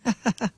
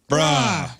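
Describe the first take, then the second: First: It is said in an excited, delighted tone. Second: It is said in a frustrated, exasperated tone. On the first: That's awesome. "that's awesome" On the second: Are you serious? "Are you serious? I'm frustrated"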